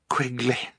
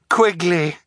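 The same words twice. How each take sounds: First: The name is said quietly. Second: The name is said loudly.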